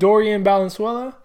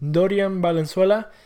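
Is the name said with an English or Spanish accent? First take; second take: English; Spanish. First: The name is said with an English accent. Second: The name is said with a Spanish accent. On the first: The speaker calls it wrong. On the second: The speaker calls it right.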